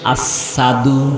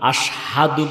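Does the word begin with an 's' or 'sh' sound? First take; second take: s; sh. First: The word begins with a plain 's' sound. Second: The word begins with a 'sh' sound. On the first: The speaker calls it wrong. "জিহ্বা কাটার কারণে তার শব্দটা চলে আসে আসাদু" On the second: The speaker calls it right. "আশহাদু বলতে পারে না"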